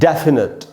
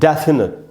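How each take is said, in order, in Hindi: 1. पहले अक्षर पर ज़ोर है और उसे खींचा जाता है। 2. पहले अक्षर पर ज़ोर है और उसे खींचा जाता है।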